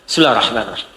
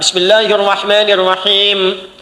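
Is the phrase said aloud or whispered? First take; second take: whispered; aloud. First: The phrase is said silently, barely voiced. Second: The phrase is recited aloud.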